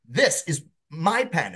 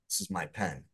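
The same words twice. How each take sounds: First: The voice sounds protective and possessive. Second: The voice sounds disdainful and dismissive. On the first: The speaker claims the pen as their own. "if I'm possessive of it" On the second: The speaker dislikes the pen. "If I don't like the pen"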